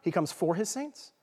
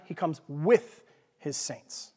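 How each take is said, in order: First: "for" lightly stressed, rising end. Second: "with" punched, slow, falling end; stress on WITH. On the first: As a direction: lean on the word for. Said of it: "So the first time". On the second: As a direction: hit the word with, slowly. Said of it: "Second time". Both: Shown as a demonstration.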